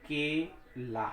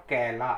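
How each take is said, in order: First: केला said very slowly, open ए; slow clear केला. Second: कैला with the inward ऐ sound. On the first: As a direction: spell out केला slowly for class. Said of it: "जैसे हमने कहा". (केला बहुत धीरे, खुली ए के साथ) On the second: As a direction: contrast कैला against केला. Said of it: "दो मात्रा लगा दें ये हो जाएगा". (कैला में अंदर की ओर ऐ की आवाज़) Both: Shown as a demonstration.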